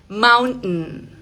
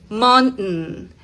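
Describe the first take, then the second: The two takes are said the same way.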